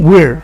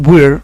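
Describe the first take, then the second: No difference in how they are said.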